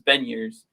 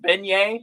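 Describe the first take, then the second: First: The name does not sound like beignet. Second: The name sounds like the pastry beignet. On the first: The speaker calls it right. "this is how he pronounces it" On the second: The speaker calls it wrong. "chirp right now and say it's it's beignet, like the you know tasty New Orleans treat"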